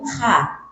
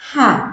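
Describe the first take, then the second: First: The h sound is rough and scraping. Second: The h sound is smooth and clean. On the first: The speaker calls it wrong. "kadang mengucapkan ha tapi kasar, jadi ha" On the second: The speaker calls it right. "Jadi ha itu benar-benar bersih"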